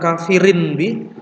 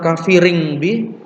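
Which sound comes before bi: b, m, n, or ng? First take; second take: n; ng. First: The tanwin is kept as a clear n. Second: The tanwin is made into an ng sound. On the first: "Jadi bukan kafirin bi" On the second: "bukan kafiring bi"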